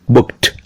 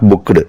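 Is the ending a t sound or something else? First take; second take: t sound; something else. First: The ending is a t sound. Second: The ending is not a t sound. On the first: The speaker calls it right. "T sound" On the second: The speaker calls it wrong. "Not booked"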